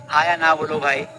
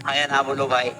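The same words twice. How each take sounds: The two takes are said the same way.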